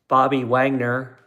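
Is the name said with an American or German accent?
American. It is said with an American accent.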